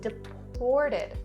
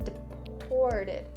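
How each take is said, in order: First: The middle syllable has a clear 'or' sound. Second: The same.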